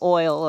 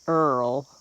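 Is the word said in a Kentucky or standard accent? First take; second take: standard; Kentucky. First: It is said with a standard oil vowel. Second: It is said the Kentucky way, like Earl.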